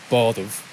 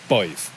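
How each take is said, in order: First: A D sound is heard in the middle. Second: No D sound is heard in the middle.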